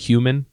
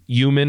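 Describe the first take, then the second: First: The word is said with every sound included. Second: The word is said with part of it dropped. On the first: This is the usual pronunciation. The speaker calls it right. "instead of" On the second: This is how the speaker's parent says it. The speaker calls it wrong. "she just takes out portions"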